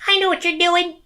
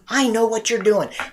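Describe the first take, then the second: First: The voice is raised to a higher pitch. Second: The voice is at its normal pitch.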